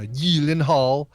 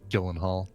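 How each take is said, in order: First: The name is said with its Swedish pronunciation. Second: The name is said with its American pronunciation. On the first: This is the family's original pronunciation. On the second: This is the adapted form the family accepts.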